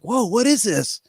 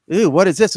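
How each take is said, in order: First: It sounds intrigued and excited. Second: It sounds disgusted and put off.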